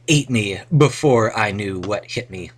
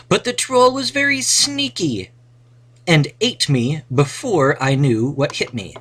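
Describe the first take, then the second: First: Said in the usual way. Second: High, bright storybook hero reading; adventurer voice. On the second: Acted. Teacher reads the adventure sentence to the class in a high hero voice. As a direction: read it like the hero telling his own tale.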